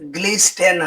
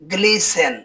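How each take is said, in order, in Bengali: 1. মাঝখানে t ধ্বনিটি উচ্চারিত হয়। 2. মাঝখানে t ধ্বনিটি নীরব থাকে। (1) "হবে না" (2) "এর উচ্চারণ হবে"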